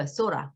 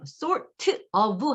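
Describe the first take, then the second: First: "sorta" as "so-ra"; flapped t. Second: "sort of" split, with a released "teu"; separated full form. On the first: Teacher correcting to real speech, "sorta" flapped. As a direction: turn the t of "sorta" into a quick flap. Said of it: "이 트 발음도". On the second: Teacher wishing it were clear, "sort of" separated. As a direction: break "sort" from "of", sound the t. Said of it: "하면 참 좋겠어요". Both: Shown as a demonstration.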